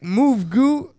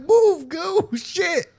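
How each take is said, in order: First: Raised, mildly urgent order; retold order to move. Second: Much higher, frustrated outburst; exasperated retold order. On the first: Speaker retells telling Goo to clear the door, mildly urgent order. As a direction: tell him to move, voice lifted a little. Acted first try at the door. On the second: Speaker retells a second try at the stuck door, high exasperated order. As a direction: re-enact losing patience, pitch jumping way up.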